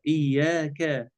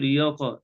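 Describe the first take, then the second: First: إياك slow with a thin, fronted ka; correct light kaf. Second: إياك ending in a thick, backed qa; wrong heavy kaf. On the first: Sheikh corrects the error, slow light kaf. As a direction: lengthen "إياك", ending on a light ka. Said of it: "الآية كلها مرققة". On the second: Sheikh repeats the common error, heavy kaf. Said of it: "لا نقول إياك". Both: Shown as a demonstration.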